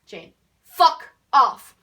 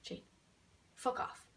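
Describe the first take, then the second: First: Slow, very loud, punched words; exaggerated shout. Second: Hushed, almost whispered dismissal; soft and understated, with a gap after the name; exaggeratedly quiet. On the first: Turning round to Jane who keeps following, exaggerated shout. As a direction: overblown bellow, each word on its own. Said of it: "But I didn't say it like that". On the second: Telling Jane to go away, exaggeratedly quiet. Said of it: "Maybe I didn't also say it like that either".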